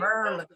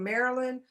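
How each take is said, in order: First: The word is squeezed into two short syllables. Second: The word is said with all its syllables. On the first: "people who are really from will say Merlin" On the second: "instead of saying Maryland"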